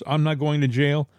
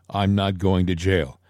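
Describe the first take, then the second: First: It is said in a nervous, anxious tone. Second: It is said in a flat, matter-of-fact tone. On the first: The speaker is worried about going to jail. "it wasn't like a nervous" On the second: The speaker is certain and knows something others don't. "It was a matter of fact"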